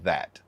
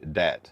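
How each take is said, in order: First: The word begins with a th sound. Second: The word begins with a d sound. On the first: The speaker is from closer to the North. "they enunciate th like that" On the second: The speaker is from the South. "southern people say dat, D A T"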